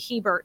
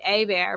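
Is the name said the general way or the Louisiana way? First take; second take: general; Louisiana. First: The name is said the general way. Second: The name is said the Louisiana way. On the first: This is how it is said outside Louisiana. "anywhere else it would be Hebert" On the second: This is how it is said locally in Louisiana. "here in Louisiana, your last name would be Abear"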